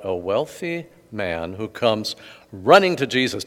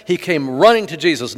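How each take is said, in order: First: Said in the usual way. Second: "running" leaned on, louder and higher; stress on running. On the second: Shown as a demonstration. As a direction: repeat it, hitting "running". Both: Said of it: "Did you hear that?".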